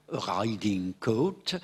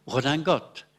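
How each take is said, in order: First: Put-on riding coat with a French accent, r rolled in the throat; gallicised English riding coat. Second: Redingote as a French word, nasal middle vowel; wholly gallicised redingote; fully French pronunciation. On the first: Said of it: "sans doute que les Français disaient". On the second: Shown as a demonstration. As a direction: say redingote the French way, falling at the end. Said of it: "petit à petit".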